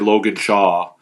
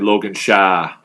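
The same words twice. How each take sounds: First: The name is said in a standard accent. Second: The name is said in a Nova Scotia accent. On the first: The speaker calls it wrong. "You can't say Logan Shaw" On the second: The speaker calls it right. "You have to say Logan Shaw, right? That's how we say it in Nova Scotia"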